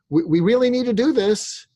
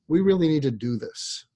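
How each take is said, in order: First: The pitch goes up at the end. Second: The pitch goes down at the end.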